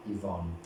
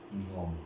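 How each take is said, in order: Both takes have the same delivery.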